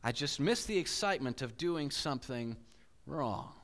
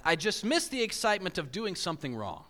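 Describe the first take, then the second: First: Reflective reread. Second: Quoted line. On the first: Shown as a demonstration. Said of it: "But notice what he said". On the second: Retold or imitated. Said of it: "And his quote said this".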